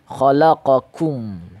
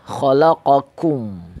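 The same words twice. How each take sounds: The two takes are said the same way.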